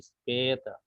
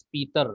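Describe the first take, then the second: First: The first vowel sounds like 'e'. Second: The first vowel sounds like 'ee'. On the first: The speaker calls it right. "tapi speta" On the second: The speaker calls it wrong. "Ini bukan speeder"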